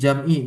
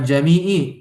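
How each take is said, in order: First: The m has no vowel, giving two syllables. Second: A vowel follows the m, giving three syllables. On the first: The speaker calls it right. "tapi jam'i, mimnya sukun" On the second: The speaker calls it wrong. "Bukan jami'i"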